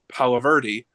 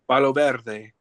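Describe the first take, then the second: First: The name is said with English pronunciation. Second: The name is said with Spanish pronunciation. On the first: "everyone here would pronounce it" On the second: "I want to say it correctly"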